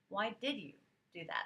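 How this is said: It sounds curious and open.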